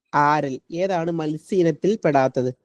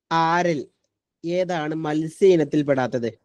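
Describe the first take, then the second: Both takes have the same delivery.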